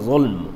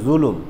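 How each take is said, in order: First: The L and M are said with no vowel between. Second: A vowel is said between the L and M. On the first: This is the original form of the word. "কিন্তু শব্দ হলো জুলম" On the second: This is the local everyday pronunciation. "আমরা বলি জুলুম, এটা আরবি শব্দ, কিন্তু ... আমাদের বাংলা প্রনাউন্সিয়েশনে এসে জুলুম"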